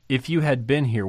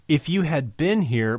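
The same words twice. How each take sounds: First: "you" leaned on, a bit higher and louder; stress on you. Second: "been" lifted high and strong; stress on been. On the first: Preacher to congregation weighing Martha's words, stress on "you". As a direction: push the word "you" as the point. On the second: Preacher to congregation weighing Martha's words, stress on "been". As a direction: land the weight on "been", then let it fall. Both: Shown as a demonstration. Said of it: "what does this imply?".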